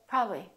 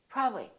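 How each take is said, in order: First: The word is shortened, with sounds skipped. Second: The same.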